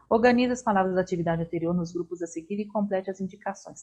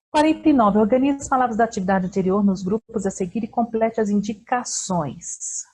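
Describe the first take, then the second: First: Instruction reread quickly at x1.6; fast reread. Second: Louder formal read of the instruction; reading the exercise. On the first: Teacher quickly rereads the same instruction. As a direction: rattle through the instruction. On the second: Teacher reads exercise forty-nine to the class. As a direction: read the task out clearly. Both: Shown as a demonstration.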